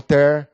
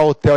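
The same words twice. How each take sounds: First: The word ends with a retroflex R sound. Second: The word ends with an L sound. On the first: "trocar o L pelo R" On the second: "Em vez de falar hotel"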